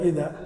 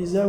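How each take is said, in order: First: Said in the usual way. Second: إزاء said with a buzzing z instead of dh; Egyptian-style إزاء, z replacing dh; Egyptian z for dhal. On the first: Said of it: "إذا قرأ القرآن كيف يقرأ". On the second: Shown as a demonstration. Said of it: "الذال يجعلونها زاي". («إزاء» بالزاي بدل الذال)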